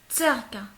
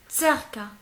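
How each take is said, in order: Both takes have the same delivery.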